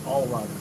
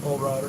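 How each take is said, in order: First: "all rider", first word said ALL; corrected to ALL. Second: Put-on "old rider", first word said OLD; name misread as OLD. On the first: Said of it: "Not old rider, old, all". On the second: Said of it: "Not old rider". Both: Shown as a demonstration.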